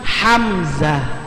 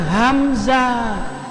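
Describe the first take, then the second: First: The word starts with a harsher, throaty h. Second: The word starts with a light, breathy h. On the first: This is a person's name. The speaker calls it right. "tapi hamzah" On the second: This is the name of a letter. The speaker calls it wrong. "Kalau nama orang itu bukan hamzah"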